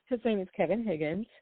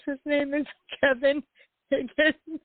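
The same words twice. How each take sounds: First: Said in the usual way. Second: High, laughing through the name; can't stop giggling while saying it. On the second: Real, not acted.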